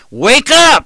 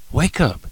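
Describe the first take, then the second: First: High, loud shout of wake up; shouted warning. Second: Softer plea. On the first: Preacher shouting at sleeping sinners, loud high shout. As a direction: yell it to wake a sleeping congregation. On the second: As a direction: pull back to a soft, earnest urge. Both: Retold or imitated. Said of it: "if you hear in the old Trailblazer".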